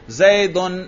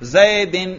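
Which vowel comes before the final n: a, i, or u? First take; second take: u; i. First: The word ends in -un. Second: The word ends in -in. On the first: The word is in the nominative case. "میں نے کیا پڑھا؟ رفع" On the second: The word is in the genitive case. "میں نے کیا پڑھا؟ جر"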